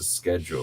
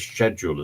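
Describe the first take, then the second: First: The word begins with an sk sound. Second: The word begins with an sh sound.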